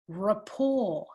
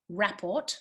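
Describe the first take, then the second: First: There is no T sound at the end. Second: A T sound is pronounced at the end. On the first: The speaker calls it right. "Second syllable has a long vowel and no T" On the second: The speaker calls it wrong. "It's not pronounced rapport"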